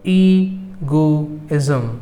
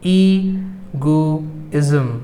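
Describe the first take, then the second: The two takes are said the same way.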